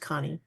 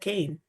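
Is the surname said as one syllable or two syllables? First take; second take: two syllables; one syllable. First: The surname is said as two syllables. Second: The surname is said as one syllable. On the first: This is the real pronunciation of the name. The speaker calls it right. "but it is pronounced Connie" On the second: This is how people usually say the name. The speaker calls it wrong. "I'm used to being called Kane"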